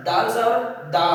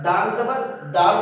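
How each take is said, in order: First: "দাল জবর দা" with the last syllable open, no l; corrected reading "দা", final l dropped. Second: "দাল জবর দাল" with an l closing the last syllable; wrong syllable ending. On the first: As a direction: say "দাল জবর দা", ending on the vowel. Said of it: "দাল জবর দা হবে". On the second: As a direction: say "দাল জবর দাল", keeping the final l on দাল. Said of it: "দাল জবর দাল হবে না". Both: Shown as a demonstration.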